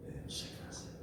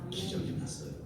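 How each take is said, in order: First: Hushed, breathless whisper; whispered wonder at the miracle. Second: Said in the usual way. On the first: Acted. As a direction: whisper it like a secret marvel. Whispered repeat.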